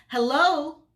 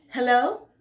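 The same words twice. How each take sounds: First: Loud, high, irritated hello; drawn-out, impatient phone greeting; annoyed. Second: High, loud rising hello; a raised, questioning call into the receiver; questioning phone answer. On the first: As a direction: call down the line with obvious annoyance. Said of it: "an obvious level of annoyance". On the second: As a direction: pick up the phone with a lifted, louder greeting. Answers phone, rolls eyes. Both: A narrator's reading.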